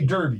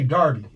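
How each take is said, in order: First: The first vowel sounds like 'er' in 'her'. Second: The first vowel sounds like 'ar' in 'car'. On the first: The speaker calls it wrong. "you don't say Derby" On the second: The speaker calls it right. "you say Darby"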